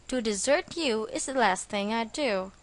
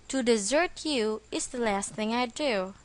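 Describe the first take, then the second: The two takes are said the same way.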